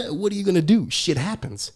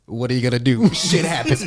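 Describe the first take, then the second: First: Higher-pitched mock amusement, after a chuckle; tertawa meledek. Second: Louder mock retort, close to own pitch; mengejek balik. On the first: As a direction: imitate someone laughing off another's loss. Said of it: "He starts laughing". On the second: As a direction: throw the taunt straight back. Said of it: "What I do right back?".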